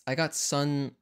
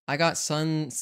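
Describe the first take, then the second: No difference in how they are said.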